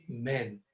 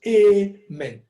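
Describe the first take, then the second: First: Said in the usual way. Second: "Amen" said loud as two clear syllables, a-men. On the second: Shown as a demonstration. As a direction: split it in two. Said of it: "Ɛyɛ two syllables".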